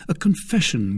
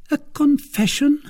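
First: Said in the usual way. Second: High, startled woman's voice; high-pitched, surprised query; questioning echo. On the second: A narrator's reading. Milady echoes it as a question.

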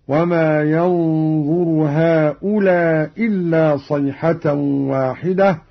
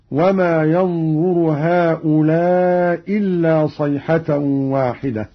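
First: هؤلاء dropping the first hamza, short vowel. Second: هؤلاء dropping the first hamza, vowel held long; long madd. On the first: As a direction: read هؤلاء إلا as هؤلا إلا, short. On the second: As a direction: stretch the vowel of هؤلاء into إلا. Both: Shown as a demonstration. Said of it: "مع القصر والمد".

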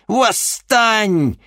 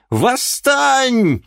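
First: High, loud, drawn-out Восстань with a falling end; Восстань cried out high and long; shouted command. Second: Восстань even higher and louder, falling at the end; Восстань shrieked at the peak; rising shout. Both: Acted. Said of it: "крикнула ведьма".

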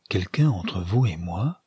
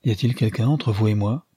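First: Slow bewildered repeat. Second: Said in the usual way. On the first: A narrator's reading. Archer repeating May's question, slow and stunned. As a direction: echo her words slowly, puzzled. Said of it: "Il redisait les mots lentement". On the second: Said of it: "elle dit à voix basse".

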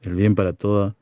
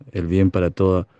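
Both takes have the same delivery.

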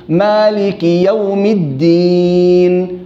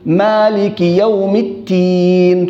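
First: "الدين" with a clear d, slowly chanted; chanted, voiced dal in a drawn-out "الدين"; correct d, chanted. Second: Chanted, "التين" with t in place of d; chanted, mistaken ta in a drawn-out "التين"; wrong t, chanted. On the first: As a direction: chant "الدين" as ad-diin, long vowel. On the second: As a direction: slowly chant "التين" as at-tiin. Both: Shown as a demonstration. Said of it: "تطلع معاه بين الدال".

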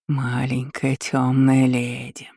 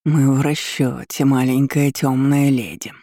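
First: Slow rustling demon voice; demonic whisper. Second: Slow, pleased demon voice; satisfied demonic rustle. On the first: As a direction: rustle it like surf on pebbles. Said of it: "прошелестел он". (шелестящий голос демона) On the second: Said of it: "прошуршал он удовлетворённо". (довольный шелест демона) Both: A narrator's reading.

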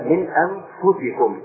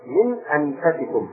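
First: أنفسكم with a short u after the f, slowly; damma on the fa. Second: أنفسكم with a short a after the f, slowly; variant reading, fatha. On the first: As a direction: say the fa in أنفسكم as "fu": anfusikum. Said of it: "بضم الفاء". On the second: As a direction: say the fa in أنفسكم as "fa": anfasikum. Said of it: "قراءة أخرى". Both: Shown as a demonstration.

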